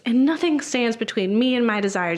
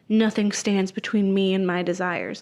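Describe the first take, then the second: First: It is said in an upbeat, motivating way. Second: It is said in a creepy, brainwashed way.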